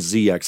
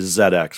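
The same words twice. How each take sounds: First: The Z is said the American way, zee. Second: The Z is said the British way, zed.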